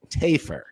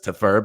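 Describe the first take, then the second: First: The last syllable is said as a reduced 'fer'. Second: The last syllable is said as a full 'fur'. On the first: The speaker calls it right. "but it is, in fact, ... Tafer" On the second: The speaker calls it wrong. "we wrongly inferred, ... that the pronunciation of the name was Tafur"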